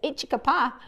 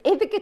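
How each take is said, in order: First: The word has a 'ch' sound after the first vowel. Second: The word has a 'th' sound after the first vowel. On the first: The speaker calls it wrong. "He says Ichicapa" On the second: The speaker calls it right. "It's Ithaca turquoise"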